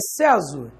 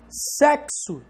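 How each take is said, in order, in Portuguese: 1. O x tem som de z. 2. O x tem som de ks. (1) "Tem som de Z?" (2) "esse X tem som de K S"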